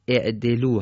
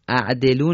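First: The word begins with an i vowel. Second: The word begins with an a vowel. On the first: The speaker calls it right. "اینجا الف مکسور میشه" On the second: The speaker calls it wrong. "اعدلو نیست"

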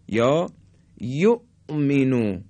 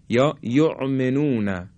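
First: The hamza is a sharp glottal stop. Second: The hamza sounds like the throaty ayn. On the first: The speaker calls it right. "این طرز تلفظ همزه در حالت سکون هست" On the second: The speaker calls it wrong. "بعضی ها مثل عین میگن"

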